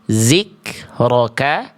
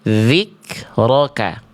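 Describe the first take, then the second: First: The first consonant is a buzzing z sound. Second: The first consonant is a voiced th sound. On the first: The speaker calls it wrong. "Jangan dibaca zikroka" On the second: The speaker calls it right. "tapi kita baca zikroka"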